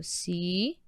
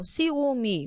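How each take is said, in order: First: "Ciúme" slowly, syllable by syllable; split into syllables. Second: Said in the usual way. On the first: Shown as a demonstration. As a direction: break "Ciúme" into ci, ú, me with long gaps. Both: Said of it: "vamos separar primeiro".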